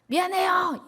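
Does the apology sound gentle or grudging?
grudging. The apology sounds curt and grudging. The speaker is not really sorry. The speaker calls it wrong.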